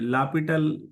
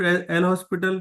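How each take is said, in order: First: The name is said with the s silent. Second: The name is said with the s sounded. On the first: The speaker calls it right. "लापिटल हम बोला जाता है इसको" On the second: The speaker calls it wrong. "हम लोग L हॉस्पिटल rule बोलते तो हैं ये, लेकिन ये उचित नहीं है"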